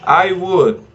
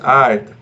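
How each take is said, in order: First: Both words are said fully and separately. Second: The two words merge into one short syllable. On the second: "it's pronounced I'd"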